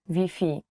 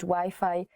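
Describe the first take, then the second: First: Wi-Fi is pronounced the Polish way. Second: Wi-Fi is pronounced the English way. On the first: Listeners will understand it. The speaker calls it right. "to Wi-Fi" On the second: Listeners will not understand it. The speaker calls it wrong. "you have to change Wi-Fi"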